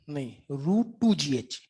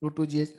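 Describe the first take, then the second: First: "two" said slowly and pressed; slow correction, stress on two. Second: Said in the usual way. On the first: Shown as a demonstration. Teacher correcting a student's answer, slow and stressed. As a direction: drag out "root two G H" to correct.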